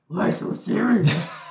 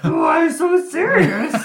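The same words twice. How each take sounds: First: It is said in a Cookie Monster voice. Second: It is said in a Grover-like voice.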